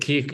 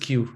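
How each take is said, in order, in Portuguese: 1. A letra é dita como 'keh'. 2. A letra é dita como 'kyoo'. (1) "em Portugal" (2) "Em inglês lê-se Q"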